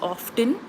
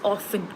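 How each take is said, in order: First: The T sound is pronounced in the word. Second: The T sound is silent in the word. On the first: The speaker calls it wrong. "we don't pronounce it as often. Uh, that that's that's uh, incorrect" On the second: The speaker calls it right. "often is pronounced with T as silent"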